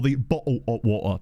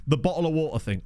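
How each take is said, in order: First: Mock Cockney "bottle of water", broken into separate chunks; mock Cockney pronunciation. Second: Said in the usual way. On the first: Shown as a demonstration. Streamer showing chat how Cockney gets overdone, mock staccato "bottle of water". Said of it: "that's not how it's said".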